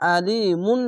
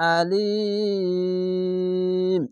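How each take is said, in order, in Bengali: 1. শব্দটি একটি পূর্ণ 'mun' দিয়ে শেষ হয়। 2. শব্দটি 'm' ধ্বনিতে হঠাৎ থেমে যায়। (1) "আলিমুন না বলে" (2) "আলিম এভাবে থেমে যাবেন"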